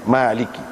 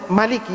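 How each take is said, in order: First: The first vowel is held long. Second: The first vowel is kept short. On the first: "ada atas panjang" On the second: "baca pendek"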